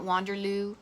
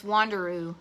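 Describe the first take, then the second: First: Wanderloo said with an extra L before the oo; mistaken name. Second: Said in the usual way. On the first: Shown as a demonstration. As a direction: slip an L in, Wander-LOO. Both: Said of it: "I just realized I, I was calling it Wanderloo".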